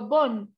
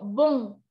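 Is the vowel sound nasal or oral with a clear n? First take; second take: oral; nasal. First: The vowel is oral with a clear n. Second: The vowel is nasal with no clear n. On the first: "En español, yo digo bon" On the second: "En francés, yo digo bon. Parce que c'est nasal"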